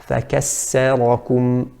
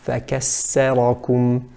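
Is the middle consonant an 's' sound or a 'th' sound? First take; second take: s; s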